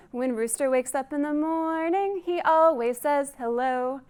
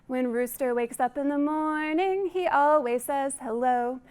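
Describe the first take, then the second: No difference in how they are said.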